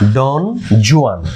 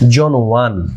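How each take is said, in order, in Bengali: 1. দ্বিতীয় শব্দটি 'joo-an' এর মতো শোনাচ্ছে। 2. দ্বিতীয় শব্দটি 'wahn' এর মতো শোনাচ্ছে।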